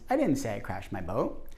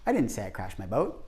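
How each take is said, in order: First: The word say carries the main stress. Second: The word didn't carries the main stress. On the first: The speaker said something different from that. "your response might be, well, what did you say?" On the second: The speaker denies having said it at all. "I naturally stress the word didn't"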